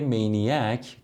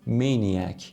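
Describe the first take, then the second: First: The stress is on the second syllable. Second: The stress is on the first syllable. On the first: It is said as in Persian speech. "ببینید استرس رو آوردم قسمت دوم کلمه" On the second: It is said as in English. "ببینید استرسش اول کلمه هست"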